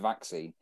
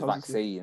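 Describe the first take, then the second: First: The stress is on the first syllable. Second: The stress is on the second syllable. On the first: This is how everyone says it. The speaker calls it right. "everyone knows it's a vaccine" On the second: This is how someone else says it. The speaker calls it wrong. "he emphasises the second syllable"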